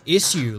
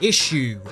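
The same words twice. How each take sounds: First: It is said in an upper-class way. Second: It is said in a working-class way. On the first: The speaker sounds like a posh snob. "like I'm some sort of upper class snob person" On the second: The speaker sounds like an ordinary working person. "the working class way"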